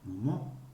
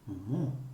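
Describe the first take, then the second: First: The stress falls on the last syllable. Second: The same.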